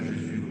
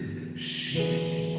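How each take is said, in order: First: The name is said quickly and flatly. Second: The name is said slowly, warmly and savored. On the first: The speaker calls it wrong. "C'est pas Jésus" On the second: The speaker calls it right. "vous l'articulez, vous le savourez"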